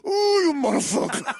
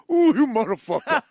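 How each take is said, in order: First: High, laughing curse; mock Sicilian foreman. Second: Loud, laughing exasperation; laughing mock boss. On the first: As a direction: groan it like an exasperated boss. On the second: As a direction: curse at him like a Sicilian foreman. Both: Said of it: "He goes".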